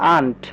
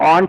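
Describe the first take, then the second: First: The vowel is an open 'ah' sound. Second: The vowel is a rounded 'aw' sound. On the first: The speaker calls it right. "এটা পড়তে হবে আন্ট" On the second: The speaker calls it wrong. "এটা কিন্তু অন্ট না"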